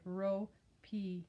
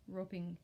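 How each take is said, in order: First: ROPING broken in two, RO, then PING; two clearly separated beats, RO and PING; split into syllables. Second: Said in the usual way. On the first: Shown as a demonstration.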